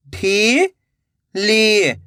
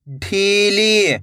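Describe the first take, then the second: First: "ढीली" split into two long syllables. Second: Said in the usual way. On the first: Shown as a demonstration. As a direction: draw out ढी, pause, then ली in "ढीली". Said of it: "एक एक अक्षर का उच्चारण". ("ढीली" को तोड़कर, ढी... ली) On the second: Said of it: "तो मिलके बन जाएगा".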